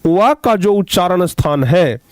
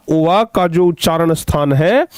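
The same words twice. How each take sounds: The two takes are said the same way.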